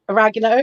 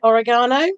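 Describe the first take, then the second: First: It is pronounced the American way. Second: It is pronounced the European way. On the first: "oregano is how Americans pronounce oregano" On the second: "in Europe and the rest of the world we pronounce it oregano"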